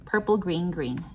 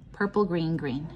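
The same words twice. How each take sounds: The two takes are said the same way.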